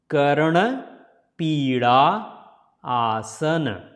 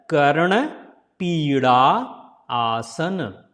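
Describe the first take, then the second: No difference in how they are said.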